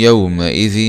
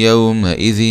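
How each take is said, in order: Both takes have the same delivery.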